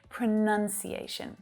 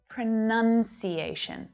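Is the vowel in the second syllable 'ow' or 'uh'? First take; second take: uh; uh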